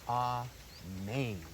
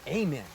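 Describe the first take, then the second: First: The stress is on the second syllable. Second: The stress is on the first syllable. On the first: "The emphasis is on the second part of the word" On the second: "Some people might even say"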